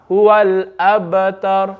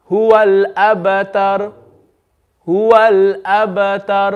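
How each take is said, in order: First: Abtar ended on a plain sukoon; slow Huwal abtar, plain stop; stop with iskan. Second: Abtar stopped while the lips round at the end; stop with ishmam. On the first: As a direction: clean silent stop on abtar. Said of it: "that's iskan". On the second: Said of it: "That's what we call ishmam". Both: Shown as a demonstration.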